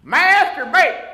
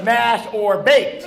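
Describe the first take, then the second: First: High, loud comic outburst; yelled. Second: "Mash or baked" slowly, as separate words; words pulled apart. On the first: Waiter yells at a diner ordering potato, comic high yell. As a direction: blurt it out as a mock waiter's yell. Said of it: "He just yells out". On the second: Explaining the waiter's real question, "Mash or baked" said slow and distinct. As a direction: spell out the misheard "Mash or baked" word by word. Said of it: "what he was saying was". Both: Retold or imitated.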